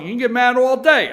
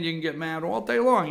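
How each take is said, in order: First: Loud high teasing repeat; loud taunt. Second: Said in the usual way. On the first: Real, not acted. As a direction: shout it at the rival fans. Host taunting rival fans, repeated.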